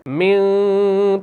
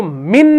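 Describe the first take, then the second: First: मिन said slowly with the न hidden as a light nasal hum; hidden noon. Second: मिन said with a clear, fully sounded न; clear noon, wrong way. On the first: Teacher showing students the correct ikhfa reading of मिन. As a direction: soften the n in मिन into a faint nasal sound. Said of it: "तो इस नून को हमने छुपाया, हल्का अदा कर दिया". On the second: Teacher showing students the wrong izhar reading of मिन. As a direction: pronounce मिन with a distinct n, the way not to read it here. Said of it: "इजहार की तरह नहीं करेंगे". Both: Shown as a demonstration.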